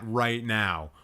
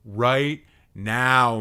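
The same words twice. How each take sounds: First: Said in the usual way. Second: RIGHT NOW, loud with each word weighted; emphatic demand. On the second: Real, not acted. Streamer ordering friend to explain, "Right now" loud and emphatic.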